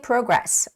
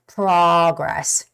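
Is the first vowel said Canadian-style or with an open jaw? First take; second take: Canadian; open jaw. First: The first vowel is said in a Canadian way. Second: The first vowel is said with the jaw open wide. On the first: "I think that's how they say it in Canada" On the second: "Touch your jaw and see whether it opens up or not"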